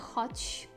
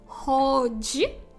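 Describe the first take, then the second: First: The final consonant is devoiced. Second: The final consonant is voiced and fully pronounced. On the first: "поляки будуть це оглушувати в кінці слова і казати «хоч»" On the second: "нащо мучитися і казати «ходжі», хоча так би було правильно"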